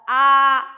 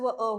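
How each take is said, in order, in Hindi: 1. स्वर दो मात्रा तक खींचा जाता है। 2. स्वर एक मात्रा तक खींचा जाता है। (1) "दीर्घ आ होगा" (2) "ह्रस्व अ होगा"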